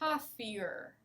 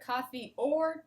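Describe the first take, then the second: First: The two words are blended into one word. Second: The two words are said clearly and separately. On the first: "you hear coffeeer" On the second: "you don't hear coffee or tea"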